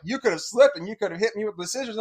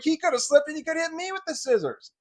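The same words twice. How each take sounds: First: Said in the usual way. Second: Much higher, turning her words back; boy throws the stepmother's words back at her; indignant retort. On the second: Retold or imitated. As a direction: fire it back incredulous.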